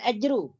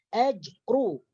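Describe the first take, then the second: First: The r is said light without rounded lips. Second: The r is said heavy with rounded lips. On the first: The speaker calls it wrong. "bukan ajru" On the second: The speaker calls it right. "ra dibaca tebal apabila dalam keadaan berbaris di hadapan"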